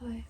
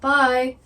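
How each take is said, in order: First: It is said at normal, soft volume. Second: It is said louder than before.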